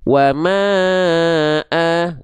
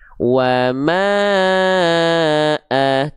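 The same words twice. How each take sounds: First: It is recited at a fast tempo. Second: It is recited at a slow tempo.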